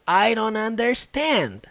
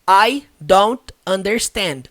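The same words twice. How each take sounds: First: The words are reduced and run together. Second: Each word is pronounced fully and separately. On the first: This is how it is actually said in practice. The speaker calls it right. "Ela faz uma junção aqui" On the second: This is the textbook form taught in school. The speaker calls it wrong. "que é o teórico, né? O jeito que a gente aprende na escola"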